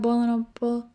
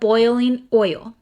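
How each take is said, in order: First: The word oil sounds close to bowl. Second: The word oil has a standard oi sound. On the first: This is the speaker's natural family way of saying it. "it's just in my bones for me to say bowl" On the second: This is not how the speaker normally says it. "That's not how I say it, though"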